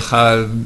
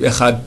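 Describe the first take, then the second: First: The final consonant is not heard at all. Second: The word ends with a t sound. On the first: "à la fin on n'entend rien" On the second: "avec un taf"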